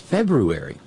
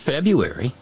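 First: The middle R is clearly pronounced. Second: The middle R is dropped. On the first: The speaker calls it right. "It's February" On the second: The speaker calls it wrong. "It's not February. That's not a silent R"

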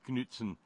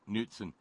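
First: The initial K sound is pronounced. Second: The initial K sound is silent. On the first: The speaker calls it wrong. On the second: The speaker calls it right.

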